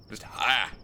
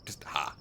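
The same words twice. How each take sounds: First: Said in the usual way. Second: Soft, fading take on "just ha"; "just ha" mumbled low and soft; trailing off. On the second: Acted. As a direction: let "just ha" drop away quietly.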